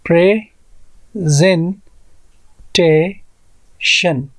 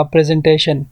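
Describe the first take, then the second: First: प्रेजेंटेशन broken into प्रे, ज़ें, टे, शन with long gaps; very slow प्रेजेंटेशन, four separate beats; syllable by syllable. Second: Said in the usual way. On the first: Shown as a demonstration. Teacher counting syllables for learners, प्रेजेंटेशन split slowly into four. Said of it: "तो यहाँ पर four syllables है". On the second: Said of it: "इसी तरह अगर मैं कहूँगा".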